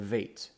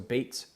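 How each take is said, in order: First: The word begins with a soft V sound. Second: The word begins with a hard B sound. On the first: The letter is written without a dot. "a softer letter that corresponds to our letter V" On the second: The letter is written with a dot. "a harder, more pressurized B"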